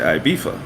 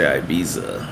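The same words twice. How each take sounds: First: The middle consonant is an f sound. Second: The middle consonant is a z sound. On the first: This is how British people say it. "British people say Ibiza" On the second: This is how Americans say it. "Americans say Ibiza"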